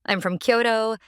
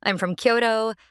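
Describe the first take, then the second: No difference in how they are said.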